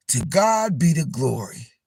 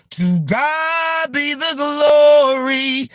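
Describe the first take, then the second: First: Said in the usual way. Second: High, sung out with long held notes; sung, belt it slowly like a gospel singer. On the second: Retold or imitated. Quoting a singer's praise line to viewers, sung out high. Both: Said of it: "What [name] say?".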